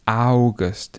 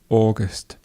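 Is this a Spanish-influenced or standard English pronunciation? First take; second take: Spanish-influenced; standard English. First: It is said with a Spanish or Portuguese accent. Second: It is said with a standard English accent. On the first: The speaker calls it wrong. "if you're from a Spanish speaking country or a Portuguese speaking country, they often say August" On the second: The speaker calls it right. "in reality, it's just August"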